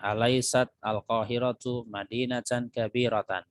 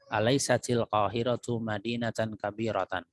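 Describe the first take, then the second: First: Alaisat and al-qahiratu are said as separate words. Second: Alaisat runs into qahiratu through a linking i.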